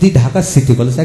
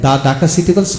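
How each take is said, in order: First: The word 'the' is pronounced 'thee'. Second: The word 'the' is pronounced 'thuh'. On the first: The speaker calls it right. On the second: The speaker calls it wrong.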